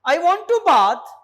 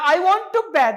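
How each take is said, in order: First: It is said with a British accent. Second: It is said with an American accent. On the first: "यहां पे देखो British वाले ये कहेंगे" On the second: "America वाले ये कहेंगे"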